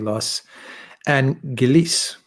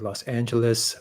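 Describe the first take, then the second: First: It is said with a British pronunciation. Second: It is said with an American pronunciation. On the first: "British Britons say Los Angeles" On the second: "Americans say Los Angeles"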